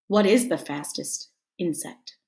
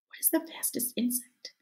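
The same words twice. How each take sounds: First: Said in the usual way. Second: Softly whispered question, much softer. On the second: Shown as a demonstration. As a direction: whisper it like a secret.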